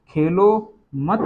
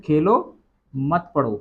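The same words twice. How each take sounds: First: "खेलो मत" grouped together, pause after मत. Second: Rising "खेलो", pause, then falling "मत पढ़ो"; pause after Khelo. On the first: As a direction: join मत to Khelo, then stop. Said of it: "अब यहाँ पे क्या पढ़ोगे". ("खेलो मत" एक साथ, मत के बाद विराम) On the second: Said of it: "या फिर". (खेलो के बाद विराम, फिर "मत पढ़ो" एक साथ) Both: Shown as a demonstration.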